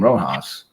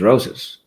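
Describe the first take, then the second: First: The middle consonant is a breathy h-like sound. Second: The middle consonant is a hissing s sound. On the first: The speaker calls it wrong. "We called him Rojas" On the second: The speaker calls it right. "and it was Rosas"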